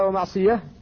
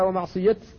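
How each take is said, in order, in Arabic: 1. تنتهي الكلمة بصوت h. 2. تنتهي الكلمة بصوت t. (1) "فلا يجوز أن تقف عليها ومعصية" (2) "بل تقف عليها ومعصية، لأن الصحابة رسموها كذلك"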